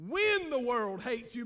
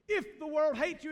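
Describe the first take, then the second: First: "when" leaned on, slow and drawn out; stress on when. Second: "If" set off at the start of the phrase; stress on If. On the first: Preacher amending the sermon title, slow emphatic stress on "when". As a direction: hit "when" hard and stretch it. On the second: Preacher stating the sermon title to the congregation, stress on "If". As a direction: put the weight on "If". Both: Real, not acted. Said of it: "let me just amend it and say".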